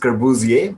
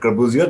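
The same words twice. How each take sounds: First: The name is said with French pronunciation. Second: The name is said without French pronunciation. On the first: "in French is pronounced, pronounced as Corbusier" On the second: "but we call it Corbusier"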